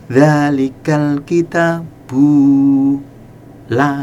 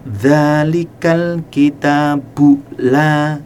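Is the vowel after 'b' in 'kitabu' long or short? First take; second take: long; short. First: The vowel after b is drawn out long. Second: The vowel after b is short. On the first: The speaker calls it wrong. "nah salah, karena ba di situ harus dibaca pendek" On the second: The speaker calls it right. "nah bu pendek"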